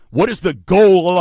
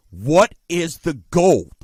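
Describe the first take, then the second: First: Said in the usual way. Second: Slow "goal" in a Chalmette New Orleans accent; Chalmette accent slip. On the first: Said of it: "What, not goal, jeez". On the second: Real, not acted. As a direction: let "goal" slip into local Chalmette vowels, drawn out. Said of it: "I sound like Chalmette a little bit sometimes".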